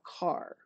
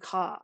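First: It is said in a general accent with r. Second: It is said with a Boston accent, no r.

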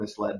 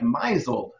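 First: The first part sounds like 'miss'. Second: The first part sounds like 'miser'. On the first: The speaker calls it right. "instead of misled" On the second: The speaker calls it wrong. "she always thought that it was pronounced like misled, like miser"

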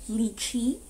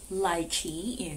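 First: It is said with a non-British pronunciation. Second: It is said with a British English pronunciation.

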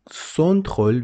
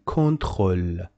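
First: The word begins with a soft S sound. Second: The word begins with a hard K sound. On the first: The speaker calls it wrong. "why you don't say it contrôle? Because after the letter C, there is no I, E, and H. It is O, so you must say K" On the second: The speaker calls it right. "so you say contrôle"

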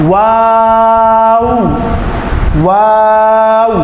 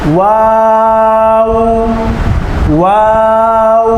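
No difference in how they are said.

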